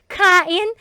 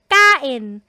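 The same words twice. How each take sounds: First: The k is released with a puff of air. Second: The k is tense with no puff of air. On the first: It sounds like a foreigner trying to speak Tagalog. The speaker calls it wrong. "Yan po ay aspirated" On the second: It is the native Filipino sound. The speaker calls it right. "itong tense consonant po natin na double K is very Filipino sound"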